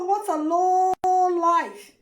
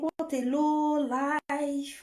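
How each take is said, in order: First: Slow disgusted verdict. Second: Slow contempt. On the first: Contemptuous verdict, louder. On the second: Contemptuous verdict. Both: Real, not acted.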